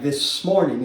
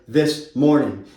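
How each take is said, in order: First: The phrase is run together and clipped. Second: Each sound of the phrase is fully pronounced. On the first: "getting a little bit sloppy like we do whenever we talk" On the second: "instead of"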